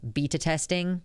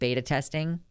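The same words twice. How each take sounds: First: Beta is said the British way. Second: Beta is said the American way.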